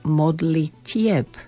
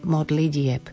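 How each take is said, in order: First: The consonant before -ieb is a voiceless t. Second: The consonant before -ieb is a voiced d. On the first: The speaker calls it right. "ale modlitieb" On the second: The speaker calls it wrong. "nie modlidieb"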